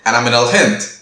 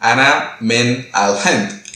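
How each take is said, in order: First: The phrase is said quickly, words run together. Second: The phrase is said slowly, word by word.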